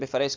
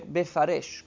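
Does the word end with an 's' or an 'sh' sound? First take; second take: s; sh. First: The word ends with an s sound. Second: The word ends with an sh sound. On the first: It means scattering the kings. "Non leggere Befares" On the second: It means pronouncing the words clearly. "cambia la sin in una shin"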